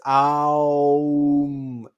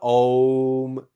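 First: The vowel glides from A through O to U. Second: The word has one plain O vowel. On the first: The speaker calls it right. "It's Aum. A-O-U-M. The correct pronunciation" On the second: The speaker calls it wrong. "that's not how you pronounce it. It's not Om"

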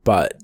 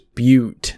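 First: The word is said as 'butt'. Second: The word is said as 'byoot'. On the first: The speaker calls it wrong. "not butt" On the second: The speaker calls it right. "It's pronounced as butte"

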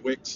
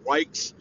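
First: The vowel is short, as in 'wick'. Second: The vowel is long, as in 'like'. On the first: The speaker calls it wrong. "started them out with Wicks" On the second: The speaker calls it right. "actually it was pronounced Wikes"

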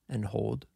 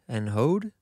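First: The L sound is clearly pronounced. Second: The L sound is dropped entirely. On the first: "which to me sounds like I'm saying the L" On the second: "doesn't like enunciating the L"

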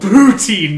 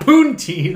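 First: The first syllable has no n sound. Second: The first syllable has an added n sound. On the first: The speaker calls it right. "it's called poutine" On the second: The speaker calls it wrong. "not poontine"

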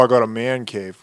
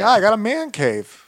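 First: The voice is deep and macho. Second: The voice is soft and not masculine. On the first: The speaker calls it wrong. "he doesn't say it like that" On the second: The speaker calls it right. "He's not that masculine. He's like"

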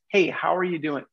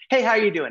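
First: It sounds warm and sincere. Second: It sounds rushed and perfunctory.

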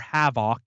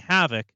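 First: It is said in an imitated Wisconsin accent. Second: It is said in the speaker's ordinary accent.

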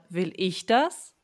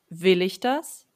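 First: The stress is on "ich". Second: The stress is on "will".

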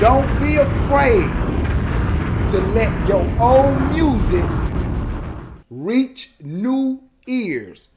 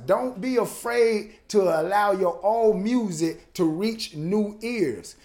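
First: It is said slowly. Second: It is said fast.

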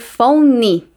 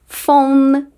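First: The word ends with an extra vowel after n. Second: The word ends cleanly on the n sound. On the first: The speaker calls it wrong. "eu não falo ... e nem what's your phone" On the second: The speaker calls it right. "E sim"

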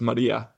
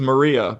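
First: The name is said with a Spanish accent. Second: The name is said with an English accent. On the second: "I worked with a girl once who was Maria"

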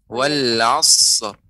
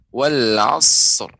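The two takes are said the same way.

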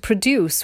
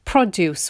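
First: The stress is on the second syllable. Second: The stress is on the first syllable. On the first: It is used as a verb. The speaker calls it wrong. "they thought it meant the verb to" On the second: It is used as a noun. The speaker calls it right. "I'm putting the stress on the first syllable"

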